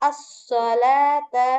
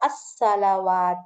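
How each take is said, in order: First: The w sound is silent, not pronounced. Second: The w sound is clearly pronounced. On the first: The letter carries no vowel mark. "இதை உச்சரிக்காம அஸ்ஸலாத்த அஸ்ஸலாத்த அப்படின்னு தான் நீங்க வந்து உச்சரிக்கணும். வாவை உச்சரிக்க கூடாது" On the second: The letter carries a vowel mark. "வாவுக்கும் ஃபத்ஹா போட்டு வந்திருக்கும். அப்போ நீங்க அஸ்ஸலவாத்த அப்படின்னு நீங்க உச்சரிக்கணும்"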